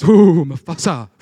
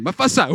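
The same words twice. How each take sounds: First: Loud, slow, drawn-out mock dread on Mufasa; "Ooh, Mufasa" in a loud, stretched, spooked hyena voice; hyena shivering at the name. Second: "Mufasa" again, louder, with a laugh in it; "Mufasa" tossed off giddily, half-laughing; giggly hyena repeat. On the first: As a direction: ham up a cartoon hyena's shudder. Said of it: "and the other guy's". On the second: Retold or imitated. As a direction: savor the scary name like a thrill-seeking hyena. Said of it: "Say it again".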